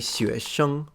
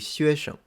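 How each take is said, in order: First: The second syllable keeps its full tone. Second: The second syllable is said in neutral tone. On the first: "some people say 学生 for student" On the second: "So the second one will be without tone"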